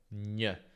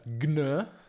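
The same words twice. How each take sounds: First: A single palatal nasal sound is produced. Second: A hard g sound is followed by n. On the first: The speaker calls it right. "bensì appunto gn" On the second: The speaker calls it wrong. "questa combinazione non si pronuncia gn"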